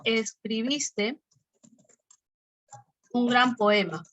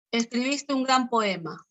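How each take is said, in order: First: "escribiste" drawn out very slowly, then "un gran poema" with a fall on "gran"; slow example read. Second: Said in the usual way. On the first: Shown as a demonstration. Teacher dictates the example sentence to students, slowly. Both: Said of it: "¿Hay tono o no hay tono?".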